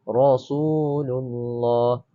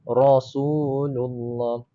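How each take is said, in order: Both takes have the same delivery.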